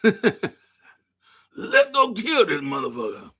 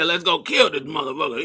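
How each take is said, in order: First: It is said in a put-on 'white girl' voice. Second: It is said in the speaker's normal voice.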